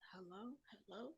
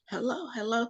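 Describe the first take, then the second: First: It is said quietly and hesitantly. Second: It is said loudly and deeply.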